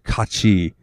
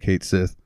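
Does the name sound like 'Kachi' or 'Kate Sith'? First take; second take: Kachi; Kate Sith. First: The name sounds like 'Kachi', two syllables. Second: The name sounds like 'Kate Sith', two syllables. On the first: The speaker calls it right. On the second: The speaker calls it wrong.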